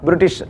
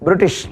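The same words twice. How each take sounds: The two takes are said the same way.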